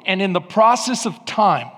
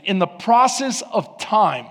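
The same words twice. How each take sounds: First: "process" leaned on, falling; stress on process. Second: "process" hit harder, falling tune; stress on process. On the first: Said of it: "I want you to mark that with me". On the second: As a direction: press the word "process" again. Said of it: "notice what the Bible said". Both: Shown as a demonstration.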